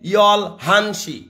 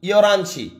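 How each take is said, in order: First: The two words are said separately with an h. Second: The words run together and the h drops. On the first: A simplified form for beginners. "এটা প্রথম শেখার জন্য ভাইয়া" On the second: This is how it is actually said. "ইয়রানসি এভাবে বলে"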